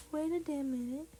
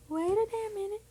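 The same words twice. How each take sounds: First: Said in the usual way. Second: Higher, louder double take; suddenly catching the mistake; real startled realisation. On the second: Real, not acted. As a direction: wait a damn minute, now alarmed. Repeats louder after catching mistake.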